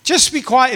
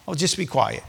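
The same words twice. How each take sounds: First: Higher-pitched acted order; forceful hushing. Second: Softly acted dismissal; quiet hushing. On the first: Crowd ordering the blind beggar silent, forceful hushing. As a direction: silence him with raised pitch. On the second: Crowd to the blind man, quiet hushing. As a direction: hush him in a low-key, softened voice.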